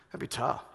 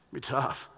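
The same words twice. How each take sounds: First: Breathy whisper of tough; hushed "that'd be tough" in a whisper. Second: Said in the usual way. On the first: Real, not acted. Whispered repetition.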